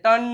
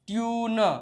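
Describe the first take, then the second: First: The vowel is a short plain u. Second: The vowel starts with a y glide. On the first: The speaker calls it wrong. "અહીંયા ટન નો કહેવાય" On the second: The speaker calls it right. "તો ટ્યુન"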